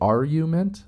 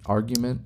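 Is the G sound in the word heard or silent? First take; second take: silent; heard. First: The G sound is left out. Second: The G sound is clearly pronounced. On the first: The speaker calls it wrong. "I thought the G was silent" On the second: The speaker calls it right. "So now I have to over-enunciate"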